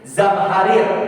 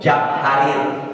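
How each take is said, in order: First: The word begins with a z sound. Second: The word begins with a j sound. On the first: The speaker calls it right. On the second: The speaker calls it wrong.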